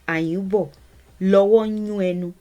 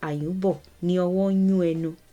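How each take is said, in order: First: 'Ni' and 'ọwọ́' merge into one word, 'lọ́wọ́'. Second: 'Ni' and 'ọwọ́' are said as separate words. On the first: "the shrunk version" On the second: "That's the statement"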